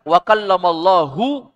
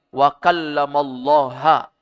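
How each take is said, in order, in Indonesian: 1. Kata Allah diakhiri dengan vokal 'u'. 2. Kata Allah diakhiri dengan vokal 'a'.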